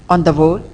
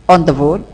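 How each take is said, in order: Both takes have the same delivery.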